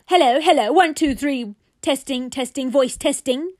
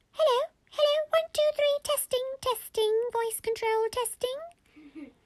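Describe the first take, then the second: First: Loud, higher playback voice; grumpy toy repeating loudly; yelling toy echo. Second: Very high mic-test squeak; tiny, squeaky mum voice; squeaky mummy voice. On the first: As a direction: bellow the mic test back as the toy. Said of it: "the toy repeated back". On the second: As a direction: test the microphone as a squeaky toy. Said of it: "and she said". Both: Acted.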